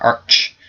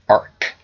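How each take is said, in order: First: The word ends in a ch sound. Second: The word ends in a hard k sound. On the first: The speaker calls it wrong. "not arch" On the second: The speaker calls it right. "It's technically arc"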